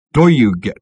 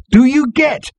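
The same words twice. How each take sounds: First: Said in the usual way. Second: Very high, loud shout of discovery; thrilled, high-pitched yell; excited shout. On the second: A narrator's reading. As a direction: shout it as the words suddenly make sense. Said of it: "shouted Ford".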